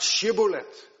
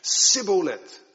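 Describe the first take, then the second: First: The word begins with a sh sound. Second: The word begins with a hard s sound. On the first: The speaker belongs to the group that passes the test. The speaker calls it right. "zoals het in het Hebreeuws staat" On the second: The speaker is revealed as an outsider by dialect. The speaker calls it wrong. "ze maken daar een harde S van"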